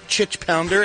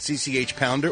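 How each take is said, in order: First: The first name is said as one syllable. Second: The first name is spelled out letter by letter. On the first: The speaker calls it wrong. "or Chich Pounder, as Dave, the King of Mexico, calls her" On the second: The speaker calls it right.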